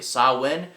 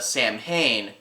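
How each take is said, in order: First: It is said as two syllables, sah-win. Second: It is said as two syllables, sam-hayn. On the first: The speaker calls it right. "how do you pronounce it correctly?" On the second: The speaker calls it wrong. "most people mispronounce it as"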